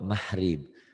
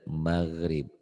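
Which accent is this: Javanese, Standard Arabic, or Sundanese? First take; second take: Javanese; Standard Arabic. First: The middle consonant is softened to an h sound. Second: The middle consonant is a throaty Arabic fricative. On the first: "Kalau orang Jawa mahrib" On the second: "Kalau orang yang benar maghrib"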